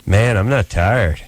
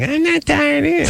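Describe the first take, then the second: First: Slow, lightly acted come-on; smooth-guy pickup line. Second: Very high, mock-girly voice; imitated young woman. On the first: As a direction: draw it out like a hopeful suitor. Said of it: "and then it's like". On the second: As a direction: squeak it like a girl playing along. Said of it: "And she's like".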